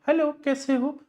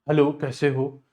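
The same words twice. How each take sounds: First: The voice is high and light. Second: The voice is low and heavy. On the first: A girl is speaking. "और लड़कियां" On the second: A boy is speaking. "थोड़ी भारी आवाज होती है"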